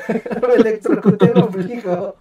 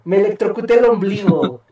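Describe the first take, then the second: First: Slow, laughing repeat. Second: Said in the usual way. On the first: Real, not acted. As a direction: laugh through it, slowly. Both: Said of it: "¿Cómo carajos te electrocutas el ombligo?".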